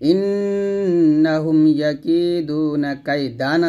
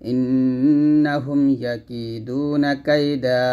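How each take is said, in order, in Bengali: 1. শেষ শব্দটি 'ন' উচ্চারণে শেষ হয়। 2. শেষ শব্দটি টেনে উচ্চারিত 'আ' দিয়ে শেষ হয়। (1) "এখানে আছে" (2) "থামলে হবে ... দা টান হবে"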